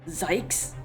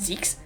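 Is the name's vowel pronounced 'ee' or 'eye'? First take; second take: eye; ee. First: The vowel sounds like 'eye', as in 'psych'. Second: The vowel sounds like 'ee', as in 'seek'. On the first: "Like psych?" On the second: "I think Zeeks is probably not right"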